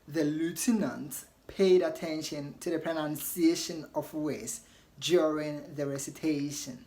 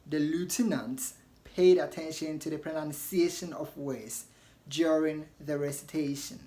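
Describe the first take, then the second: First: It is said in an American accent. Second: The same.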